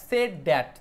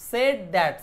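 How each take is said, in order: The two takes are said the same way.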